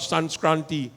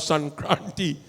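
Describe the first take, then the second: First: The word has an extra s sound before k. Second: The word has no extra s sound before k. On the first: The speaker calls it wrong. "not Sanskranti" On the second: The speaker calls it right. "It's Makar Sankranti"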